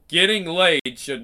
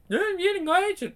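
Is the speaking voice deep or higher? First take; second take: deep; higher. First: The voice is much deeper. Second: The voice is higher and lighter. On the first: "I'm going to say that in a much deeper tone than what he used" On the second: "he was like"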